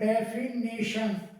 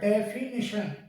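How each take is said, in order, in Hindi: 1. तीसरा अक्षर 'nay' की तरह बोला जाता है। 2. तीसरा अक्षर 'ni' की तरह बोला जाता है। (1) "अपन इंग्लिश में और डेफिनेशन करके बोलते हैं" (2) "इसका सही प्रोनाउंसिएशन होता है डेफिनिशन"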